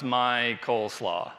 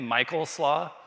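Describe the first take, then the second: First: The name is said slowly, split apart. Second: The name is said at a normal pace. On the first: "and you say it slowly" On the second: "my full name"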